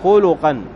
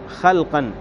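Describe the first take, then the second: First: First vowel u, and u after the l. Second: First vowel a, no vowel after the l. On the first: It refers to character and moral traits. "بضم الخاء وضم اللام" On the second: It refers to physical bodily features. "بفتح الخاء وسكون اللام"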